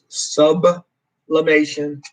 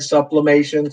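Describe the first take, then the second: First: The word is said without a P sound. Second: The word is said with a P sound. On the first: The speaker calls it right. "I do understand it is sublimation" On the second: The speaker calls it wrong. "I'm so used to saying sublimation. So if I say the P"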